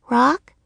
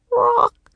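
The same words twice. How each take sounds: First: ROCK as a higher, rising question. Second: Very high-pitched bird croak; raven croak. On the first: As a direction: repeat "Rock" questioningly in a girl's voice. Annie repeats the croak as question. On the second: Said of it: "the raven croaked". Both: A narrator's reading.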